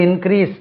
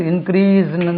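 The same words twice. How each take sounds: First: இன்க்ரீஸ் ending in a crisp s; in-KREES for இன்க்ரீஸ்; correct pronunciation. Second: இன்க்ரீஸ்ன்னு with a long ee and z sound; in-kreez for இன்க்ரீஸ்ன்னு; common pronunciation. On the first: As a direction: end இன்க்ரீஸ் on an s sound. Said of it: "இன்க்ரீஸ்ன்னு தான் நம்ம உச்சரிப்போம்". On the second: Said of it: "தான் நம்ம உச்சரிப்போம்". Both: Shown as a demonstration.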